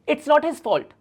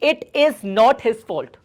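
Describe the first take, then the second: First: 'It is' is shortened to 'it's'. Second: 'It is' is said as two full words. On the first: "यहां पे जो इट्स है ये किसका contraction है?" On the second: "ये भी सही है"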